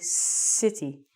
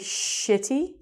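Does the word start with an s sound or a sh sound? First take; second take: s; sh. First: The word starts with an s sound. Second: The word starts with a sh sound. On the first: The speaker calls it right. "you want to say city" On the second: The speaker calls it wrong. "You don't want to say shitty"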